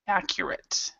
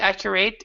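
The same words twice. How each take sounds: First: The last syllable is said without stress. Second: The last syllable is said with stress. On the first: The speaker calls it right. "this one is actually that isn't stressed. This last part" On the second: The speaker calls it wrong. "instead of accurate"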